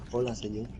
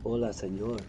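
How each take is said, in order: First: Lightly imitated Spanish accent. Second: Soft Spanish accent imitation. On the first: Imitating the Barcelona girl again, Spanish accent. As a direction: repeat Hola, señor with Spanish accent. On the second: Imitating a Spanish girl from Barcelona, Spanish accent. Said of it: "she was going".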